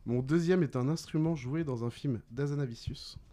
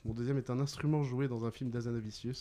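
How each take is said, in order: First: Deliberate, spaced clue-giving; measured riddle reading. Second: Quicker, lower-key rereading; brisk recap. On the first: Quizmaster gives players a film clue, deliberately. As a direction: present the clue phrase by phrase. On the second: Quizmaster repeats the film clue, briskly. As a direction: run through the clue in one breath. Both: Real, not acted.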